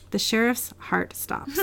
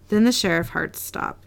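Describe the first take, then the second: First: Slow, softer "The sheriff's heart stops."; careful correction. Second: Said in the usual way. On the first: Real, not acted. Corrects the flubbed line.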